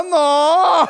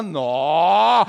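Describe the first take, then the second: First: High, loud, drawn-out "nó"; appalled Mineiro "nó". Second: Long "nó" swooping up from low; admiring Mineiro "nó". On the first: Mineiro seeing an ugly woman, loud appalled "nó". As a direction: cry out a long "nó" in mock horror. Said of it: "Passou uma feia, fala nó". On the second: Mineiro watching a pretty woman pass, long admiring "nó". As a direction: stretch "nó" out in appreciation. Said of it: "Passou uma mulher bonita". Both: Acted.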